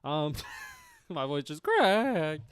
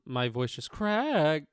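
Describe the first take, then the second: First: Laughing, replaying the crack on purpose, a bit louder; mock voice crack. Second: Voice crack. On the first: Streamer laughing as he mimics his own voice crack. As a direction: redo the crack through a laugh. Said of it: "the voice crack". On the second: Real, not acted. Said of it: "I sounded like I'm crying there".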